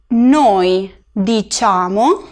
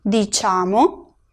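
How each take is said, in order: First: Very slow, diciamo as dee-CHAH-mo; slow pronunciation. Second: Diciamo said very slowly, dee-CHAH-mo with a rise; slow pronunciation. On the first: Teacher modelling diciamo for students, very slow. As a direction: draw out diciamo syllable by syllable. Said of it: "la C y la E hacen el sonido che". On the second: Teacher repeating diciamo, slow and rising. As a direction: repeat diciamo slower, stressing cha. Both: Shown as a demonstration.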